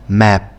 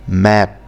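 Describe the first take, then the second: Both takes have the same delivery.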